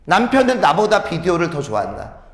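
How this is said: There is a pause after 나보다. The husband likes videos more than I like them. "원래는 여러분 여기서 띄어 읽어야 돼"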